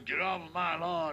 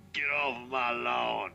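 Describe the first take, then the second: First: Lightly voiced old grouch, pitched up a little; crotchety old guy. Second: Lightly voiced grumpy old man, pitched down a little; mock-shoo kids away like a crotchety homeowner; crotchety old guy. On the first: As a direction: do a mild grumpy-neighbor scolding. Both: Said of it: "some crotchety old guy walks out and goes".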